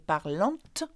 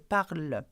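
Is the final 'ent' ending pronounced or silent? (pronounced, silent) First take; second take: pronounced; silent. First: The final ending is sounded out aloud. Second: The final ending is silent, not sounded. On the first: The speaker calls it wrong. "though it has E N T, we don't say parlante" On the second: The speaker calls it right. "we say parle"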